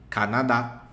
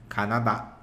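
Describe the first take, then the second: The two takes are said the same way.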